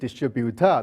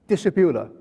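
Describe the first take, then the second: First: The stress is on the third syllable. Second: The stress is on the first syllable. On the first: "Malaysian distributor, the third one" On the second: "a Chinese distributor, the stress is the first one"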